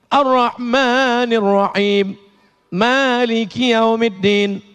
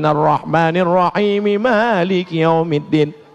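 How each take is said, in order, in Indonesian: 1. Ada jeda yang jelas di antara ayat-ayat. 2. Ayat-ayatnya disambung tanpa jeda. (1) "Itu namanya wa wakaf" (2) "Kalau wasol"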